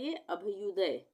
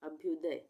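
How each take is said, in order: First: The bh is followed by a full vowel. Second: The bh is bare, joined to the next sound. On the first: The speaker calls it wrong. "अगर पूरा भ आ जाता तो क्या बनता है" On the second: The speaker calls it right. "तो यहाँ पे आधा भ आएगा"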